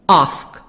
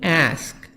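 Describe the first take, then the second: First: It is said with a British accent. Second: It is said with an American accent.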